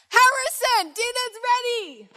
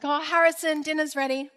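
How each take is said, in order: First: It is said very loudly, almost shouted. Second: It is said at a normal, quiet volume.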